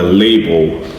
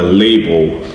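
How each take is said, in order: First: The word is said as 'label' with an 'ay' vowel. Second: The word is said as 'label' with an 'ay' vowel.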